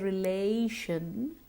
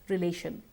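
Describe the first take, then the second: First: The vowel is long and glides. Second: The vowel is short without a glide. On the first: The speaker calls it right. "Remember to stretch the sound" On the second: The speaker calls it wrong. "It's too short. And we tend to say something like"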